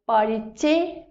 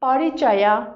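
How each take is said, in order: First: The word ends in a short 'e' sound. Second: The word ends with a full 'ya' syllable.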